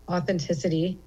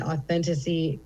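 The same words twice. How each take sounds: First: Said in the usual way. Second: "authenticity" with a syllable dropped, as "authentissy"; slip of the tongue. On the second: Real, not acted. Comedian praising sharing in the moment, fumbles "authenticity" as "authentissy". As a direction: stumble on "authenticity", swallowing the "-it-" before "-y". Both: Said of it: "sorry, authenticity".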